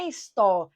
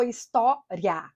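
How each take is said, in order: First: "história" split his-tó-ri-a, RI and A apart; four syllables. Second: "história" slowly split his-tó-ria, RIA as one syllable; three syllables. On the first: Teacher showing how people divide história, RI and A separate. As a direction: separate the final vowels of "história". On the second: Teacher showing the other division of história, RIA in one piece. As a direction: join the final RIA in slow "história". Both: Shown as a demonstration. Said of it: "Aí muita gente fala assim".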